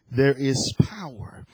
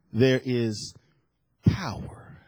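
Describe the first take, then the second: First: Said in the usual way. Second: Low, trailing into a whisper; hushed awe. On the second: Real, not acted. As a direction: let POWER fall to a whispered breath. Dramatic hush on key scripture phrase.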